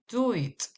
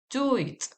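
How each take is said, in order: No difference in how they are said.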